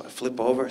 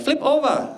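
First: Said in the usual way. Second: High-pitched imitation of non-native English; put-on foreign English accent, much higher. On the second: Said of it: "she didn't speak English".

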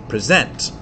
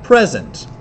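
First: "present" with the weight on -sent; stress on second syllable. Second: "present" punched on pre-, sent light; stress on first syllable. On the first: Teacher shows unstressed then stressed beat in a word, stress on the second syllable. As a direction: say "present" as the verb, stress at the end. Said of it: "unstressed followed by stressed". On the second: Teacher shows stressed then unstressed beat in a word, stress on the first syllable. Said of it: "stressed followed by unstressed". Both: Shown as a demonstration.

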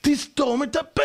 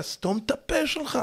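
First: High, slow emphatic shout; shouted command. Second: Acted retort. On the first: Acted. Lecturer telling husband to stay silent, shouted command. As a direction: stretch it out as a forceful order. Forceful repeat of the remark. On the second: Wife throwing a word at her husband, acted retort. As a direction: toss it out high, holding back volume.

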